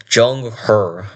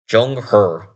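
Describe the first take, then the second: First: The name is said in a Chinese way. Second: The name is said in a Chinese way.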